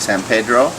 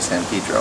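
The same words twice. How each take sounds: First: It is pronounced the Spanish way. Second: It is pronounced the local English way.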